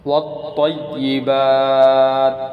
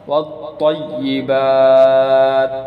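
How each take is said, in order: Both takes have the same delivery.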